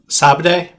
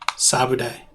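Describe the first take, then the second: First: It is said in two syllables, no middle vowel. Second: It is said in three syllables, with a middle vowel. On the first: This is the usual way to say it. "It has a silent U" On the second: Only some people say it this way. "Some people pronounce the U"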